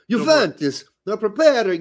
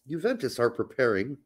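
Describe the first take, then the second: First: It is said in a put-on Italian accent. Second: It is said in a plain American accent.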